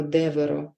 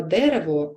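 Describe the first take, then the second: First: «деверо» whispered, with в and р swapped; childlike misspeaking. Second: Said in the usual way. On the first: Shown as a demonstration. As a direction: breathe «деверо» as a child's slip. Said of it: "ми чуємо". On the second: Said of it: "замість слова".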